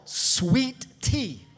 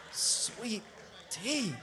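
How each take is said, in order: First: Loud preacher's proclamation; exultant proclamation. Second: Soft, spaced-out savoring; hushed reverence. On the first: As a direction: proclaim it loudly to the congregation. Preacher exalts sweet tea, then repeats it. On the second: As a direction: drop to a hush, one word at a time. Soft reverent repeat after the shout. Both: Real, not acted.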